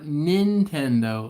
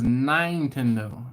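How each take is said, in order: First: Said in the usual way. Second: "Nintendo" said slowly with a long I, nine-tendo. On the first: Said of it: "it was like, not Nintendo". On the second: Retold or imitated. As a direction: make the first syllable of "Nintendo" rhyme with fine. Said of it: "I can't say it the way he said it".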